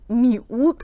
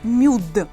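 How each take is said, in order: First: The i is sounded as its own separate vowel. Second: The i only softens the m, with no separate vowel. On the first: The speaker calls it wrong. "не надо, например, там говорить ... миут. Нет, она не читается" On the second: The speaker calls it right.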